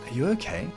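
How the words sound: The question sounds warm and caring. "This is an empathetic tone of voice"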